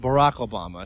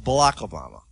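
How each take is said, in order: First: The r in Barack is a clear r. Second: The r in Barack sounds like an l. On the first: The speaker calls it right. "you've got to say Barack Obama" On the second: The speaker calls it wrong. "she has problems with the L's and the R's"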